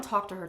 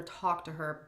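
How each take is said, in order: First: "talk" leaned on, louder; stress on talk. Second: Said in the usual way. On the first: Real, not acted. Explaining contact with ex's wife, stressing "talk". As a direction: emphasise "talk" to mean real conversation. Doubles phrase to narrow its meaning.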